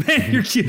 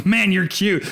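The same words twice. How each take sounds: First: Higher, laughing "Man, you're cute"; laughing doting gush. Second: Doting parent gush. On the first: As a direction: coo it again through a laugh. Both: Retold or imitated. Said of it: "thirty minutes of going".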